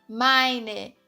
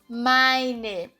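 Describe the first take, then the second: Both takes have the same delivery.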